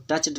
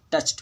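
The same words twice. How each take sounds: First: टच्ड ending in a voiced D; wrong past ending. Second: टच्ड ending in a voiceless T; correct past ending. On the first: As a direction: say टच्ड with D after ch. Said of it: "नहीं पढ़ेंगे". (टच्ड के अंत में ड की आवाज़) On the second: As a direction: say टच्ड as "tucht". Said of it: "च के बाद ईडी जुड़ा है". (टच्ड के अंत में ट की आवाज़) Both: Shown as a demonstration.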